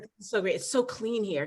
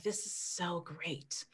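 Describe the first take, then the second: First: Said in the usual way. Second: Softer, slow hint of a West African accent; hint of his accent. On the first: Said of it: "but I'm not gonna try to replicate it". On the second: Wife quoting husband in Vermont, faint West African accent. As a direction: barely put on his West African accent, then drop it. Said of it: "he would say it in his accent".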